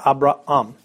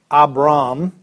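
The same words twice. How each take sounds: First: Abraham as "ah-bra-AHM", two separate A's; both A's pronounced. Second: Abram as "ah-BRAHM", one long A; A's run together. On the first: Teacher corrects the merged version, both A's sounded. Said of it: "you pronounce both of them". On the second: Teacher shows what to avoid, A's merged. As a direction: merge the end of Abram into a single slow "brahm". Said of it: "Not Abram". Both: Shown as a demonstration.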